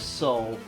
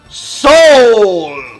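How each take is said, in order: First: The word is said flatly with little energy. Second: The word is said loudly with great energy. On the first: "you're not saying it with enough gusto" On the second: "I shall say it with gusto"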